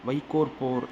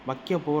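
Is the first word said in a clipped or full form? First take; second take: full; clipped. First: The first word is said in full, with long o. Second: The first word is shortened, ending in a vowel. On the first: This is the formal written form. "வைக்கோற் போர் அப்படின்னு இங்கே கொடுத்துருக்காங்க" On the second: This is the everyday spoken form. "வைக்க போர் அப்படின்னு நம்ம சொல்லுவோம் பேச்சு வழக்கில்"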